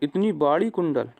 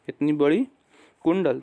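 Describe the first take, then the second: First: The first vowel of 'badi' is drawn out long. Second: The first vowel of 'badi' is short. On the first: This is how village speakers say it. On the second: This is the standard way to say it.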